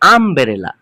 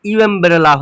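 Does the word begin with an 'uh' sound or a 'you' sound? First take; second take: uh; you. First: The word begins with an 'uh' sound. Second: The word begins with a 'you' sound. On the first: The speaker calls it right. "কিন্তু আমবেরেলা" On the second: The speaker calls it wrong. "ইউ এমবেরেলা হচ্ছে না"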